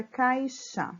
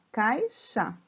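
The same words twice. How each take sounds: First: Said in the usual way. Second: "caixa" split into cai, pause, xa; teacher's demonstration of "caixa", cai... xa; syllable separation. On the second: Shown as a demonstration. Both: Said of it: "Quando eu faço a separação de sílabas".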